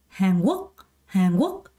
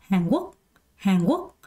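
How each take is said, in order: The two takes are said the same way.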